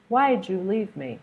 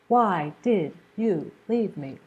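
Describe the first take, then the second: First: The d and y blend into a j sound. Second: Each word is said fully and separately. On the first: "do you hear that j sound?" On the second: "he doesn't say"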